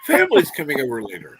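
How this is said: The voice sounds bright and cheerful. The visit is something to look forward to. The speaker calls it right. "I'll I'll try to sound better"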